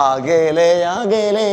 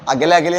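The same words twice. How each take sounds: First: "അകലെ" with long stretched vowels; sounding far away. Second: "അകലെ" said short and quick, no stretch; no expression. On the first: Teacher makes the class feel distance, അകലെ drawn out. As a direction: draw out അകലെ as if pointing into the distance. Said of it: "അകലെ തോന്നണം അവിടെ". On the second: Teacher shows what will not work, അകലെ unstretched. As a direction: toss off അകലെ without any distance. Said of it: "എന്ന് പറഞ്ഞാൽ പറ്റുമോ?". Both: Shown as a demonstration.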